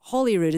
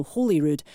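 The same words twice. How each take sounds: First: "Holyrood" with the short o of "holly". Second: "Holyrood" with a long o, as in "holy". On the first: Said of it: "not Holyrood as in holly tree". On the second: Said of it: "Holyrood as in holy". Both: Shown as a demonstration.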